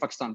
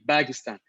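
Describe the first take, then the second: First: The word begins with a P sound. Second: The word begins with a B sound. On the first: This is the usual form of the name. "we say Pakistan" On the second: This is the Arabic form of the name. "in Arabic there's no pa, so you say Bagistan"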